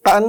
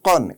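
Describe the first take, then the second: First: কান with a light, open a; thin wrong কান, open a vowel; কান said light, not heavy. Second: কন heavy, with a dark o; full, heavy কন from the throat; correct কন. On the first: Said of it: "কান বললে ভুল হবে". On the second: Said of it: "এটাও মোটা". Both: Shown as a demonstration.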